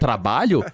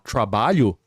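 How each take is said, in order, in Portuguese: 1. O som de TR é dito do jeito brasileiro. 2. O som de TR é dito do jeito estrangeiro. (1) "ao invés de trabalho" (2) "um gringo vem aqui falar trabalho"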